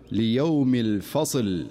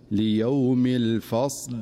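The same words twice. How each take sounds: First: الفصل stopped with a vowel slipped onto the ص, slow; common mistake. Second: الفصل stopped with the ص fully silent, slow; correct stop. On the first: Teacher demonstrating the wrong stop on الفصل. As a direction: recite الفصل wrongly, voicing the ص before the final ل. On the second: Teacher demonstrating the correct stop on الفصل. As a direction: recite الفصل with a still ص and a clean stop. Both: Shown as a demonstration. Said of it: "والصواب أن يقول".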